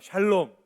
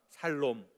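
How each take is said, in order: First: The word begins with a sh sound. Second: The word begins with a plain s sound. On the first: It is the Hebrew word for peace. "발음을 잘해야 돼요" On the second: Those who seek peace will live. "어떤 놈이 살롬 그랬는데 맞아요"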